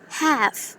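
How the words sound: It is said in an American accent. "when it becomes American, it is half"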